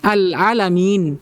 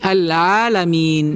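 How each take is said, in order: First: The long vowel is cut too short. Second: The long vowel is held for normal length. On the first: The speaker calls it wrong. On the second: The speaker calls it right.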